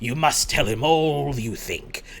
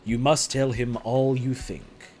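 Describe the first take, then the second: First: It is read in a put-on Van Helsing voice. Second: It is read in the reader's normal voice.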